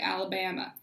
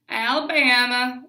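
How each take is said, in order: First: It is said in the speaker's ordinary accent. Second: It is said in a put-on Southern accent.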